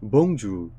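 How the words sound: It is said with a French accent. "프랑스식 발음은 선생님도 잘 못하는데 bonjour 뭐 이런 식으로 하는데"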